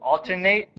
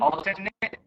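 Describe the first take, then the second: First: The last syllable sounds like 'ate'. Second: The last syllable sounds like 'it'. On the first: It is used as a verb. "verbs on left" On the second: It is used as a noun. "A T E at the end of a noun is pronounced I T"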